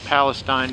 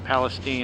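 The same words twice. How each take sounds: First: It is pronounced the way the spelling suggests. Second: It is pronounced differently from the spelling. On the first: This is how the name is written. "It's spelt Palestine" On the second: This is how local people say the name. "they pronounce it Palestine"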